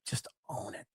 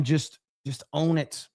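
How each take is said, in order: First: Whispered, under the breath; a breathy aside, almost no voice. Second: Said in the usual way. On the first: Real, not acted. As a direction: say it again as a hushed whisper. Repeated as a whisper.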